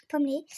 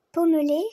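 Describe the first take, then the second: First: Said in the usual way. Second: Louder, firm pommelé, each syllable clear; emphatic repeat. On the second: Shown as a demonstration. Rider proudly repeating the coat colour, louder and emphatic. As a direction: restate pommelé with a punch. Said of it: "euh, pommelé".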